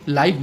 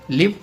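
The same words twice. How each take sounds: First: लाइव with an eye vowel, as in five; the adjective sound of लाइव, gliding vowel; long-i pronunciation. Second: लिव with a short i, as in give; the verb sound of लिव, short vowel; short-i pronunciation. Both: Shown as a demonstration. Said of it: "different in pronunciation".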